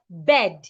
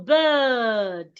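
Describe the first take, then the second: First: The vowel is short, without the long uh sound. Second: The vowel is a long uh sound. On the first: The speaker calls it wrong. "An average person will pronounce this word" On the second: The speaker calls it right. "the sound becomes longer. So you go bird"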